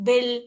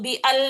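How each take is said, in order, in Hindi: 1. आवाज़ें बिना किसी रुकावट के आराम से जुड़ जाती हैं। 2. "bi" और "al" के बीच एक हल्की रुकावट होती है। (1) "बिल पढ़ी मैं" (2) "इसको बी अल नहीं पढ़ी"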